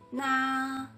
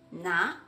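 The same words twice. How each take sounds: First: The pitch stays high and level. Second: The pitch rises from middle to high.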